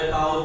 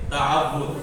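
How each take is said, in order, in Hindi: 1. बीच का w sound double नहीं है। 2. बीच का w साउंड डबल है। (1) "कुछ लोग इसको ताउज बोलते हैं ... ये गलत है" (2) "वाव के ऊपर तशदीद है, तो असल लफ्ज क्या है?"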